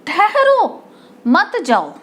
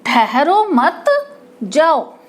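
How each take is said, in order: First: "ठहरो" set apart as its own command; pause after ठहरो. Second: "ठहरो मत" joined, clear break, then "जाओ"; "जाओ" set apart as its own command; pause after मत. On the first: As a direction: put the comma right after "ठहरो", before "मत जाओ". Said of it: "यहाँ पर लगा देंगे हम". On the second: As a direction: hold the comma after "मत" before saying "जाओ". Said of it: "के बाद". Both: Shown as a demonstration.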